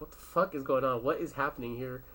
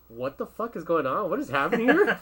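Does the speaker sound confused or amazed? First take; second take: confused; amazed. First: It sounds confused and lost. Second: It sounds amazed and impressed.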